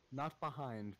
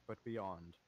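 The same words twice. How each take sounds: First: Behind said plainly, set against beyond; stress on behind. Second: Beyond said lower, as the correction; stress on beyond. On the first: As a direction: say behind as the wrong word. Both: Shown as a demonstration.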